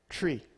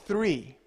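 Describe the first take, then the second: First: The word starts with a plain 't' sound. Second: The word starts with a 'th' sound. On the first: The speaker calls it wrong. "I said it this way, tree" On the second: The speaker calls it right. "no, that is not how you say it. It's three"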